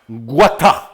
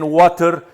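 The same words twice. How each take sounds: First: It is said in a British accent. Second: It is said in an American accent.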